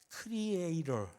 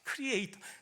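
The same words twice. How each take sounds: First: It is said with Korean-style pronunciation. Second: It is said with English-style pronunciation. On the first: The speaker calls it wrong. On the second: The speaker calls it right.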